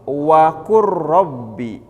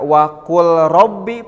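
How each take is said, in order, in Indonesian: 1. Huruf l melebur menjadi r yang ditasydid. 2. Huruf l dibunyikan sebelum r. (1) "tetapi wakur robbi" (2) "Jadi tidak wakul robbi"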